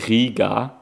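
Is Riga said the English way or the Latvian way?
Latvian. It is said with a local Latvian pronunciation. This is how locals say the name. "that's I think how you pronounce it"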